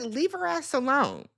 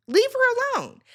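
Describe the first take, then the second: First: Said in the usual way. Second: "Leave her alone" thrown out much higher and louder, stress on "her"; emphatic repeat. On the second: Shown as a demonstration.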